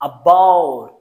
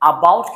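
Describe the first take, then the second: First: The first vowel is a short, weak schwa. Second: The first vowel is full and clearly sounded. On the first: The speaker calls it right. "আ সাউন্ডটা একটু করে এসেছি এবং স্ট্রেসটা পড়েছে বা সাউন্ডের উপর" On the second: The speaker calls it wrong. "আমি about কিন্তু বলিনি"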